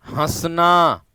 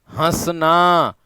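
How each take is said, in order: First: Said in the usual way. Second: हंसना drawn out slowly with a nasal हं; teacher sounding out हंसना slowly; slow model word. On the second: Shown as a demonstration. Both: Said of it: "उच्चारण करके देख लेना".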